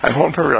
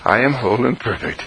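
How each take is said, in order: First: The phrase is said quickly and run together. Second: The phrase is said slowly and clearly enunciated. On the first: The thought is rushed through carelessly. The speaker calls it wrong. "instead of burbling it out fast" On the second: The thought is treated as precious. The speaker calls it right. "Enunciate the words so that they are clearly in thought"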